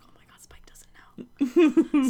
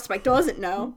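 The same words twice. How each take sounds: First: Slow, shocked whisper; hushed whisper. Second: Said in the usual way. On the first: Retold or imitated. Frank realizing Spike doesn't know, slow shocked whisper. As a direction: breathe it out in alarm, slow. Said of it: "Frank's just like".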